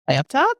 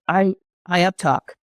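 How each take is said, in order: First: The voice rises at the end. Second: The voice falls at the end.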